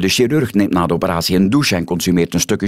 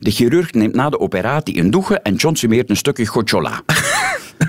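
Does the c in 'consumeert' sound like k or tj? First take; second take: k; tj. First: The c in 'consumeert' sounds like k. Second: The c in 'consumeert' sounds like tj.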